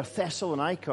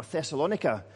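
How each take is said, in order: First: Thessalonica said with a long "eye" in -nica. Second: Thessalonica stressed on LON, short i after it. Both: Shown as a demonstration. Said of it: "depending on how you pronounce".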